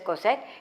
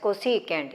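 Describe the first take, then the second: First: The word is cut short to two syllables. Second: The word is said in full with three syllables. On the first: The speaker calls it wrong. "Some uh, pronounce it as cosec. It is uh, rather odd" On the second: The speaker calls it right. "Better you read it as cosecant"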